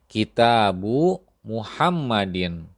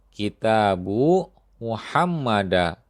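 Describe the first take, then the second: First: The name ends with the sound 'in'. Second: The name ends with the sound 'a'. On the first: The speaker calls it right. "Contoh ini benar" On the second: The speaker calls it wrong. "Contoh yang ini keliru"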